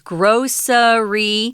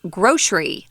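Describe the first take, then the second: First: The word is said with three syllables. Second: The word is said with two syllables. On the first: "One is grocery" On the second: "the other one is two syllables"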